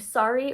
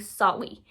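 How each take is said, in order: First: The word is said with a clear R sound. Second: The R is replaced with a W sound. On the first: "the R" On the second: "the W"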